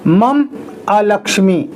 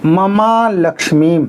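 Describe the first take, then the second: First: The words are split apart, with a break. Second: The words are run together without a break. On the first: The speaker calls it wrong. "ऐसे नहीं बोलना है" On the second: The speaker calls it right. "इसी तरह से बोलना है"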